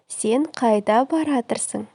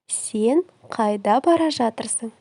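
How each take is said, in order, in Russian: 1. Глагол сжимается в одно короткое слово. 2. Глагол произносится двумя полными словами.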